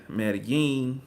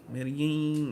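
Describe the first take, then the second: No difference in how they are said.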